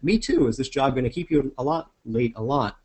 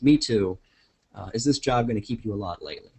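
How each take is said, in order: First: There is no pause after "me too". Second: There is a pause after "me too". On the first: "if I read that line like that" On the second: "there's a little mark in there that says a beat"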